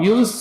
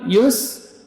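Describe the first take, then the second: First: The s sound ends with a bouncing release. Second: The s sound flows on with continuous air. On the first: The speaker calls it wrong. "Yus misalnya nggak boleh" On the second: The speaker calls it right. "tapi dia mengalir"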